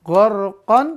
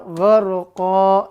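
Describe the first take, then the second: First: The word ends with an n sound. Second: The word ends with a long a sound. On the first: This is how the word is written. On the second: This is how the word is read when stopping. "bacanya gharqa"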